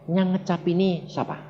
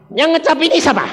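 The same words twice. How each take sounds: First: Soft, even question, hardly raised; gently whispered-down instruction; calm inner voice. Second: Higher and louder, pressing the officer; pointed challenge out loud; confronting question. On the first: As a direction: pass on a quiet prompt from God. God's calm instruction, then repeated. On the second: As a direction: put the question to the policeman boldly. He repeats it aloud to police. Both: Retold or imitated.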